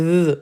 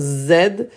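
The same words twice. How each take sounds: First: A voiced th made with the tongue forward. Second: A buzzing z made with the teeth together. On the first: The speaker calls it right. "On met la langue devant, là, Z, Z, et ça vibre un peu" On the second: The speaker calls it wrong. "Ce n'est pas la lettre Z"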